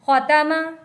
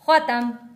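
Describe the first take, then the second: First: The word ends with a final vowel sound. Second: The word ends on a bare consonant.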